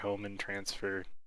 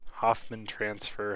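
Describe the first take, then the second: First: The name is said with no f sound. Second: The name is said with an f sound. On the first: The speaker calls it right. "I think it's Hohmann" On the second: The speaker calls it wrong. "I've never pronounced it correctly"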